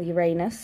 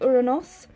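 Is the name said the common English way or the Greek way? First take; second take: common English; Greek. First: The name is said the common English way. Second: The name is said the Greek way. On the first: The speaker calls it wrong. "if you must say it that way" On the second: The speaker calls it right. "I'm going to say it the Greek way"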